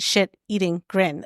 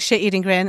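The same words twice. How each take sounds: First: Each word is said clearly and separately. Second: The words are run together like one word. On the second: "it's, like, one word"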